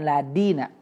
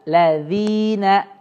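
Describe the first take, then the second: First: The middle consonant is a d sound. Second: The middle consonant is a soft dh sound. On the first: The speaker calls it wrong. "illaladina jadi dal" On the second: The speaker calls it right. "Pastikan illalladzina pakai dal"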